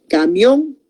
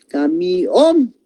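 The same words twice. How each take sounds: First: Said in the usual way. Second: "Camión" pulled apart, the O hit hardest; stress on final O. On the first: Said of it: "ahí no se va a partir". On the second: Shown as a demonstration. Teacher showing where the accent falls in "Camión", stressing the final O. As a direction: land the strongest beat on the O of "Camión". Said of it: "el mayor golpe de voz está en la O".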